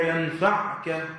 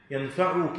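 First: ينفعك as "yanfa'ka", no vowel after the ayn; slow ينفعك, jussive "yanfa'ka"; sukun on the ayn. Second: ينفعك as "yanfa'uka", with damma on the ayn; slow ينفعك, voweled "yanfa'uka"; u before the kaf. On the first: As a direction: close the ayn straight onto ka in ينفعك. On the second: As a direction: put a short u after the ayn in ينفعك. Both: Shown as a demonstration. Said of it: "أيهما الصحيح؟".

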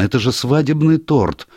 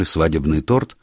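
First: Higher-pitched excited exclamation; sudden realisation. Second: Restrained, puzzled question at usual pitch; questioning echo. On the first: Niece suddenly tells doctor the poison's source, excited realisation. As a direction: blurt it out as it dawns on you. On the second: Doctor checks what the niece just said, puzzled question. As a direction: repeat it back as a query. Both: A narrator's reading.

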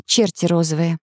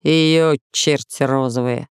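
First: Put-on light girl's voice; cheerful young girl agreeing; Alice agreeing. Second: Slow, lower soldier's voice; slow guard voice. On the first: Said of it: "согласилась Алиса". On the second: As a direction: plainspoken guard, unhurried. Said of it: "ответил воин". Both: A narrator's reading.

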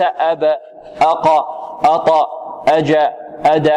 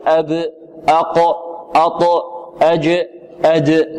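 First: Each of أب، أق، أط، أج، أد released with a short "a" after it; wrong qalqala towards fatha. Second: Each of أب، أق، أط، أج، أد ends in a neutral echoing bounce; correct qalqala bounce. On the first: Teacher showing students the mistake, qalqala leaning into "a". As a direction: add an "a" vowel to the final bounce. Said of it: "وليس". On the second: Teacher modelling correct qalqala, final consonants bounced neutrally. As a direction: bounce the final consonant without adding a vowel. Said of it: "هكذا، وليس". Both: Shown as a demonstration.

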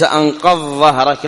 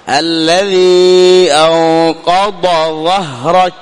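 First: أنقض ظهرك run together, ض lost in the ظ; quick slurred أنقض ظهرك; merged wrong reading. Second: Very slow recitation, ض of أنقض clear, then ظ of ظهرك; separated letters. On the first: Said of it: "وليس". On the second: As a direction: hold أنقض, then a fresh ظهرك with the tongue out. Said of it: "تفصل، توضح الضاد ثم تنطق بالظاء". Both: Shown as a demonstration.

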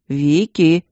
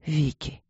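First: Loud call of «Вики» right at the ear; shouting. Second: Soft, dying-away whisper of Vicky; fading whisper. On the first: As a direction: yell «Вики» to wake her. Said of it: "кричал кто-то над ухом". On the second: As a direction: let «Вики» fade to a breath. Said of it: "шептал он тяжело". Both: A narrator's reading.

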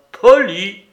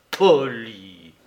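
First: Loud, high burst of disbelief; outraged echo. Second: Loud, low, drawn-out word; scornful echo. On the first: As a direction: throw the word back indignantly. Outraged echo of the other's word. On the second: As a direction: repeat it lower, heavy with scorn. Repeated echo, lower and drawn out. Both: A narrator's reading.

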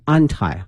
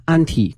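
First: "anti" said AN-tie, with a long i at the end. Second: "anti" said AN-tee, with an ee at the end. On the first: Host teaching the alternative pronunciation, "anti" as AN-tie. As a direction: say "anti" with its last syllable like "tie". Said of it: "另外呢也可以念成". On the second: Host teaching the first of two pronunciations, "anti" as AN-tee. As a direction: say "anti" with its last syllable like "tee". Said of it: "两个发音哈". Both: Shown as a demonstration.

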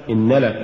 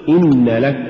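First: إن لك fused as one word; no stress setting إن apart from لك; words run together. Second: Firm stress on إن, then لك; separate words. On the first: Teacher shows the mistake, إن لك run together. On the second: Teacher models correct recitation, إن stressed before لك. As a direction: keep إن apart from لك. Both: Shown as a demonstration. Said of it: "ولا تقل".

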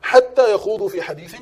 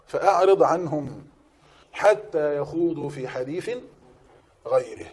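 First: حتى stressed, louder and higher; emphatic repeat. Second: Slow, measured recitation of يخوضوا. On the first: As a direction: punch حتى يخوضوا في حديث. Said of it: "واعرض عنه". (تأكيد قوي على كلمة حتى) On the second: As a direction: draw out حتى يخوضوا في حديث calmly. Verse recited slowly. (تلاوة بطيئة هادئة) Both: Shown as a demonstration.

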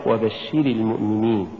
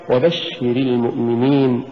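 First: "وبشر" with shi-ri leaned on, as if feminine; mispronounced وبشر. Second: "وبشر" with short ri, weight on the shsh; correct وبشر. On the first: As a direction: press the i sounds in وبشر. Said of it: "ولا تقرأ". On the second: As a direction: glide lightly from وبشر into المؤمنين. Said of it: "فتقرأ". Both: Shown as a demonstration.

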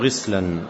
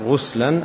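First: "غسلا" with an i vowel, ghislan; kasra on the ghayn. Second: "غسلا" with a u vowel, ghuslan; damma on the ghayn. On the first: Teacher showing the alternative reading, "غسلا" pronounced ghislan. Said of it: "أو بكسرها". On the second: Teacher showing the first reading, "غسلا" pronounced ghuslan. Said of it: "إما بضم الغين أو بكسرها". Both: Shown as a demonstration.

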